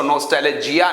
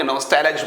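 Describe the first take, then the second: First: नॉस्टैल्जिया said in full with the ending -iya, as the wrong form; the full word नॉस्टैल्जिया, ending on -iya, shown as the form to avoid; wrong pronunciation. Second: नॉस्टैल्ज said short, stopping on the -j with no -iya ending; correct pronunciation. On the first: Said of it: "इसको नॉस्टैल्जिया नहीं बोलेंगे". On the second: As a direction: clip नॉस्टैल्ज off at the j, the right way to say it. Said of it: "नॉस्टैल्ज बोलेंगे". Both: Shown as a demonstration.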